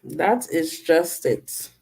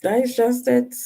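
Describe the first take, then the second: First: Slow, softer, falling to the floor; slow, low take. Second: Lifted high, same level; higher take. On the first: Repeating her line, second take slow and low. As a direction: let it sink, slow and resigned. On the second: Repeating her line, first take pitched high. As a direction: say it up high, a light aside. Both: Shown as a demonstration.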